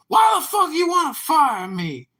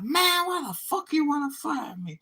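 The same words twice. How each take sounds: First: High, loud mock outrage; angry fired guy. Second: High squeaky mock outrage, much higher; imitating the fired guy's high indignant whine; angry fired guy. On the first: At the apology meeting, the guy's loud high outraged voice. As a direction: squeak it out like the indignant fired guy. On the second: Retelling the firing, mimics the guy's high outraged voice.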